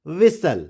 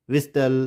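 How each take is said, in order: First: "whistle" as VISS-ul, no T; silent T. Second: "whistle" as VIS-TUL, T pronounced; wrong sounded T. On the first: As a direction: leave the T out of "whistle". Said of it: "इस तरह से हम इसको pronounce करेंगे". ("whistle" में टी silent, विसल) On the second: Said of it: "इस तरह से हम प्रोनाउंस नहीं करेंगे". ("whistle" में टी बोलकर, विस्टल) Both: Shown as a demonstration.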